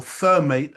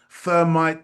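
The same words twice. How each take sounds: First: "thermate" with a long-a second syllable; THERMATE pronunciation. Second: "thermite" with a long-i second syllable; THERMITE pronunciation. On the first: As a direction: say "thermate" ending like "mate". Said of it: "the minister said thermate". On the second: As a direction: say "thermite" ending like "might". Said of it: "however you pronounce it". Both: Shown as a demonstration.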